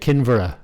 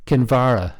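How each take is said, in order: First: Kinvara stressed on KIN, with a reduced middle syllable; first-syllable stress. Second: Kinvara stressed on VAR, with a full open "ah"; second-syllable stress. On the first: German visitor names where they are staying, Kinvara stressed on its first syllable. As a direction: put the weight on the Kin of Kinvara. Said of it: "His emphasis was on the first syllable". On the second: Father shows the German how to say it, Kinvara stressed on its second syllable. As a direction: put the weight on the var of Kinvara. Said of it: "putting the emphasis on the second syllable".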